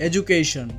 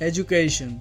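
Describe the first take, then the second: No difference in how they are said.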